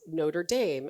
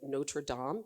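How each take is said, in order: First: The name is said with English pronunciation. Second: The name is said with French pronunciation.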